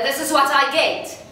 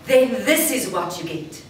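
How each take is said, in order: First: Ordinary voice pushed louder, forced and tight; just louder. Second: Open, full voice, opened up to the crowd; bigger voice. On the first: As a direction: push the normal voice louder. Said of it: "if I try to make my ordinary speaking voice louder". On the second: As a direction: open out and draw them in. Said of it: "I have my ordinary speaking voice and I want to make it bigger". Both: Shown as a demonstration.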